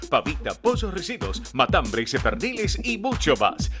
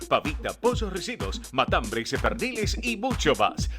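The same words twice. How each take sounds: The two takes are said the same way.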